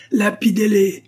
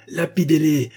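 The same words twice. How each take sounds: First: "lapidez-les" much higher and louder; escalating mob cry. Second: "lapidez-les" raised and high; first call to stone them, holding a little back; high crowd shout, short of full volume; mob cry. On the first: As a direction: peak of the crowd's shouting. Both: A narrator's reading. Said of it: "s'écrièrent de toutes parts".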